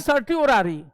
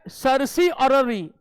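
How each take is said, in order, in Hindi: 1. दूसरा अक्षर t से बोला जाता है। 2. दूसरा अक्षर s से बोला जाता है। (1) "इसको लोग पढ़ लेते हैं सर्टी ओरारी, नहीं" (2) "यह है सरसी अररी"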